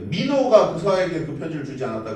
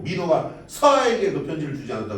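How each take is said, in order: First: The stress falls on the word 민호가. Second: The stress falls on the word 서아에게. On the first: It was this particular person who did not give the letter. "누군가 편지를 주지 않긴 했는데 민호가 안 준 거고" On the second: The letter was given, but not to this recipient. "민호가 편지를 주긴 줬는데 서아에게 준 건 아니라는 거지"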